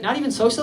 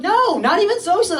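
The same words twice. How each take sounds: First: "socially" as a light query; questioning. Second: High, emphatic denial; exasperated insistence. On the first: Nurse double-checking a patient doesn't drink, questioning. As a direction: ask "socially" in an everyday questioning tone. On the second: Patient answering the nurse's doubt, exasperated insistence. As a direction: insist on it, pitched right up. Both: Retold or imitated.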